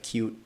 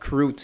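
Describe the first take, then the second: First: The word has no r sound after the k. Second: The word has an r sound after the k. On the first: This is the usual way to say it. "instead of cute" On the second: This is how it was said as a young child. "I used to say croot"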